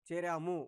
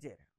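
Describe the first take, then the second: First: The final syllable is fully pronounced. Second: The final syllable is dropped. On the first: The speaker calls it right. "ము అక్షరం వరకు వినబడాలి" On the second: The speaker calls it wrong. "అనకూడదు"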